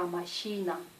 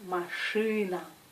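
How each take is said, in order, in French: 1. La voyelle après la consonne se prononce molle, comme и. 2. La voyelle après la consonne se prononce dure, comme ы. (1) "C'est pas machina" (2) "la lettre I se prononce U"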